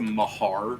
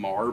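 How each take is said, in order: First: The name is said with two syllables. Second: The name is said as one short syllable. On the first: "it might be pronounced the Mahar Mountains" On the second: "I keep saying Mar"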